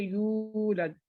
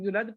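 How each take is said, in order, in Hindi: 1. u स्वर दो मात्रा तक खींचा जाता है। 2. u स्वर छोटा ही बोला जाता है। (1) "इसको हम दो हरकत खींचेंगे" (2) "वाव को कैंसिल कर दें"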